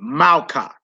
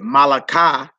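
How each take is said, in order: First: The middle vowel is dropped out. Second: A full vowel is kept in the middle. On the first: The speaker calls it right. "you would say Malka" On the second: The speaker calls it wrong. "You wouldn't say Malaka"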